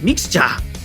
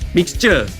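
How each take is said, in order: First: It is said in a Japanese accent. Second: It is said in a plain English accent.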